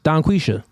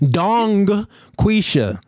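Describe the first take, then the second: First: Said quickly, with no G sound after Don. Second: The G sound is clearly pronounced after Don. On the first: "But if you say it fast, the G disappears" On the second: "You want me to pronounce that?"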